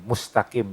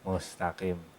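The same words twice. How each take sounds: First: The s is hissed with plenty of air. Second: The s is hissed with very little air. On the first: The speaker calls it right. "pastikan aja anginnya ada ya" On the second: The speaker calls it wrong. "jangan mustaqim. Anginnya sedikit"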